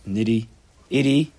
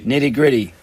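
First: "Nitty-itty" drawn out slowly, the "gr" missing; fumbled word. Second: "Nitty-gritty" said whole and louder, with its "gr"; corrected word. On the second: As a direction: land firmly on "Nitty-gritty", the word just found. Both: Real, not acted. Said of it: "what is the word".

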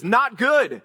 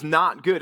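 First: "Not good" punched out higher, both words stressed; emphatic NOT GOOD. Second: Said in the usual way. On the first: Acted. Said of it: "emphatically him declaring".

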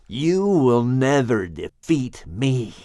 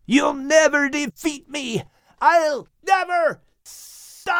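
First: Slow, venomous snake hiss. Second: Much higher falling scream of defiance. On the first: Wounded snake hissing defiance at Shem, slow menacing hiss. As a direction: draw out a menacing serpent threat. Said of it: "Charlatan hissed". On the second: Snake screaming defiance as it falls into the abyss, high wailing scream. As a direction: wail it while falling away. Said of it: "heard the snake screaming as he plummeted". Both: Acted.

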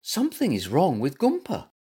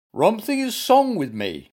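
First: Said in the usual way. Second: "Something is wrong" said as "rumpthing is song", high and loud; muddled first sounds. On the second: A narrator's reading. Bear tells zebra his trouble, "Something is wrong" as "rumpthing is song".

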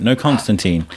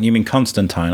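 First: "Constantine" with last syllable rhyming with "seen"; insisted pronunciation. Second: "Constantine" with last syllable rhyming with "wine"; corrected pronunciation. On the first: Correcting a friend on a comic character, "Constantine" ending in -teen. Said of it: "I was like, No, Constantine". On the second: Friend querying a comic character's name, "Constantine" ending in -tyne. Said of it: "he's like, You mean Constantine". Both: Retold or imitated.

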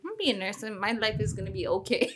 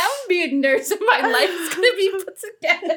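First: Soft restatement of a hopeful plan; much softer, understated quote of past self; quiet retold self-assurance. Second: High, laughing declaration; giggly high-voiced send-up of big hopes; mocking past self. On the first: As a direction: say it softly, as if reassuring yourself. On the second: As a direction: announce a naive plan through laughter, pitched up. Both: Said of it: "that's how I was saying".

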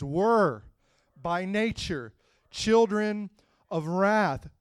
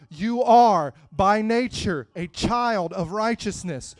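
First: Put-on were set apart, by nature children drawn out slowly; stress on were. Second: Are hit loud, the line said slowly; stress on are. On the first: Preacher reading the verse, landing hard on were. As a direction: lean on were and slow down on children. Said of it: "Past tense, were". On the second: Preacher contrasting past were with present are, slow and loud. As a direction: punch are against were. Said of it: "contrast with were". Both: Shown as a demonstration.

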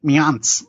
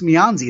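First: "Mianz" without the final ee; "Mianz", cut down to mee-AHNTS; corrected pronunciation. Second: "Mianzi" with a full "zee" ending; "Mianzi", sounded out as mee-AHN-zee; mistaken pronunciation. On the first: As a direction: end "Mianz" straight on the consonants. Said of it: "It's pronounced like". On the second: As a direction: say "Mianzi" ending on a clear ee vowel. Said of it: "it's not pronounced". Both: Shown as a demonstration.

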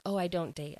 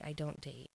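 First: Said in the usual way. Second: Repeated much softer, trailing off; muttered echo of the same words; quieter repeat. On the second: Retold or imitated. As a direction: drop the voice on the echo. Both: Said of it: "he said a couple times, like".

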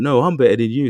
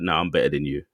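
First: Higher, louder mock one-upping; louder comeback boast. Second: Said in the usual way. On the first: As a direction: fire it back, topping him. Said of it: "And they're like".

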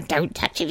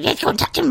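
First: Hushed half of Gollum's argument, softer; Gollum arguing. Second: Much higher Gollum voice answering himself; Gollum arguing. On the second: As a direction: squeak back as the other Gollum. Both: Retold or imitated. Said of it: "It's like Schmiegel".

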